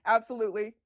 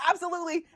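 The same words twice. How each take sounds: First: Said in the usual way. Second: Eager yes. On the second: Real, not acted. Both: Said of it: "one hundred percent absolutely".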